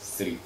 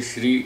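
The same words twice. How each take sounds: First: श्री said as sri with an s sound; wrong pronunciation. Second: श्री with a clear sh at the start; correct pronunciation. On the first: Teacher imitating the sloppy sri for श्री, softer. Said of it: "वो श को स बोलते हैं". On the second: Teacher showing the proper श्री, a bit louder. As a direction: say श्री as shri, not sri. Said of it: "ऐसे ही श्री". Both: Shown as a demonstration.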